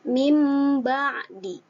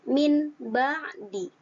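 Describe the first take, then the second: First: The first word ends with an m sound. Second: The first word ends with an n sound.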